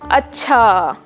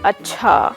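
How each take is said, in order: First: The word is stretched out slowly. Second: The word is said flat, without melody. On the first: "Drawn out"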